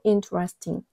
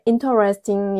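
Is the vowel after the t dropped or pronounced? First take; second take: dropped; pronounced. First: The vowel after the t is dropped. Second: Every syllable is pronounced clearly and separately. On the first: "실제로 가장 많이 쓰이는 발음은 interesting" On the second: "우리는 또박또박 interesting 이라고 하지만"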